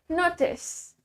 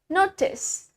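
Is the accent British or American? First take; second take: British; British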